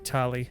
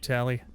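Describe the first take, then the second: First: The first vowel is an open 'ah'. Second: The first vowel is a short flat 'a'. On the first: The speaker calls it right. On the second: The speaker calls it wrong. "Wrong vowel sound for A"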